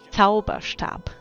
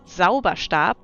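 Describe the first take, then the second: First: The word begins with a Z sound. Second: The word begins with an S sound. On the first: It means magic wand. The speaker calls it right. "it's a Z in the beginning, not an S" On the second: It sounds like a word for a cleaning stick. The speaker calls it wrong. "If you would say Zauberstab, ... it sounds like a stick to clean with"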